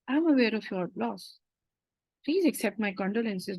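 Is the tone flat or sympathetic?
sympathetic. The tone is soft and sympathetic. The speaker calls it right. "you have to be, ... This is how you have to speak"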